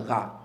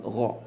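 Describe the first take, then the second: First: Gha with a light, thin vowel; gha without the heavy throat sound; gha said too light; light gha, the wrong way. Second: Gha with a heavy, dark vowel; gha said deep from the throat; gha with the weight of the ghain; heavy gha, the right way. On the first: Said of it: "not gha". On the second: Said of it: "but gha". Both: Shown as a demonstration.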